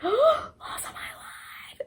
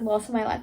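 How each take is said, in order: First: Loss of my life whispered high and slow; a stunned, hushed whisper of Loss of my life; awed whisper. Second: Said in the usual way. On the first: Real, not acted. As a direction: breathe it out in disbelief after a gasp.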